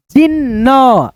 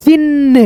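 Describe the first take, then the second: First: जिन न with the half न fast and the last न carrying a short a; jin-na, half न quick, final न with the a sound; correct reading. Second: जिन read as जी न न, both न split apart; the wrong way, जिन broken into separate न sounds. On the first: Teacher shows children the correct reading of जिन न. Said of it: "आधा न जुटा है उसको हमको फास्टली पढ़ना है". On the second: Teacher shows children the wrong reading of जिन. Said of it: "ऐसे जी न न ऐसे नहीं पढ़ना". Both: Shown as a demonstration.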